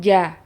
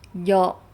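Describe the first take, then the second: First: The vowel is open and clear, like 'a'. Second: The vowel is rounded and pulled back, like 'o'. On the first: The speaker calls it right. "bukan ja" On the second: The speaker calls it wrong. "Karena dia terlalu ke belakang"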